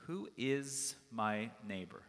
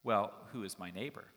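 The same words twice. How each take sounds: First: "Who is my neighbor?" slow and spaced, falling at the end; pondered question. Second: "Well, who is my neighbor?" asked with a rising end; follow-up question. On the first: Shown as a demonstration. Preacher repeating the lawyer's question to the congregation, slow and pondering. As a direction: weigh each word of "Who is my neighbor", settling down on "neighbor".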